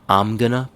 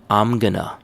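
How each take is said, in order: The two takes are said the same way.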